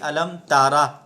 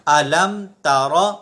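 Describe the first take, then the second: First: The r sound is light and plain. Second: The r sound is full and heavy. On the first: The speaker calls it wrong. "इसको नॉर्मल नहीं पढ़ना, ऐसे नहीं" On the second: The speaker calls it right. "बल्कि रा को पुर पढ़ेंगे"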